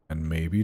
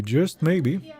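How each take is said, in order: First: Maybe said low and low-key; plain maybe. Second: Maybe lifted high and louder; just MAYBE, teasing emphasis; stress on maybe. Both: Real, not acted.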